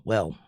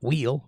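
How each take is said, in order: First: Said in the usual way. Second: "wheel" with a long ee in place of the short e of well; wrong vowel. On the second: Shown as a demonstration. Singer showing how not to say the word, "wheel" with long ee. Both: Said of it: "Not wheel, well".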